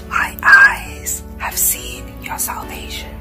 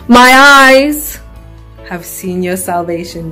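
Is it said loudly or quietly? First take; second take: quietly; loudly. First: It is said quietly. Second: It is said loudly.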